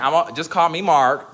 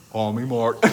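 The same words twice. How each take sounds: First: Said in the usual way. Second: A lightly lowered, covert man's voice; stealth man voice. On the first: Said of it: "I'm gonna be the man". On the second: Shown as a demonstration. Joking to friends, lightly playing a man called Mark. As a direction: sneak it out like a man in disguise. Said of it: "I'm doing my stealth".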